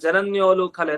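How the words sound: The break comes after 'jananyo'. It follows the recitation habit, not the word meaning. The speaker calls it wrong. "ಜನನ್ಯೋ ಅಂತ ಹೇಳಿದೆ, ಲೂ ಕಲೆ ಅಂತ ಬಿಡಿಸ್ದೆ"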